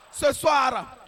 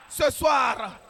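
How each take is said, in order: Both takes have the same delivery.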